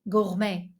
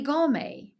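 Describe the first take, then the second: First: The word is said with French pronunciation. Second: The word is said with English pronunciation.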